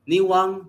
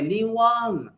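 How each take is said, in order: First: The vowel is said short and plain. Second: The vowel is drawn out long. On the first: It is thin. "niwang means thin" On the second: It is very thin. "if we want to emphasize that it's very thin, we'll say niwang"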